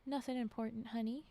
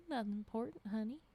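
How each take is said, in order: First: Said in the usual way. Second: Put-on lightly drawled Louisiana accent. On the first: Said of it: "Okay, so he said". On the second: A narrator's reading. Husband back in his old dropped accent, Louisiana drawl. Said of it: "speaking in his old Louisiana drawl".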